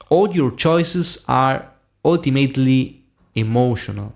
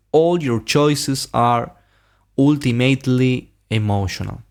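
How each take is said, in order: Both takes have the same delivery.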